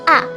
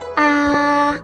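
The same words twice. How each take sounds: First: The pitch starts high and drops sharply. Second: The pitch stays high and level. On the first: "starts out high but drops sharply to the bottom of the tonal range" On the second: "The first tone is high and at the same level"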